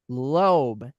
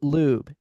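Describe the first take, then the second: First: The vowel sounds like 'oh'. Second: The vowel sounds like 'oo'. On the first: The speaker calls it right. "So I did say it right first time" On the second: The speaker calls it wrong. "Or is it lube?"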